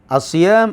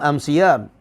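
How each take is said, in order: First: The article is said with its usual 'l' form. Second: The article is said with an 'm' sound.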